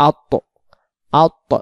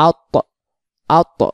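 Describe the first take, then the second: No difference in how they are said.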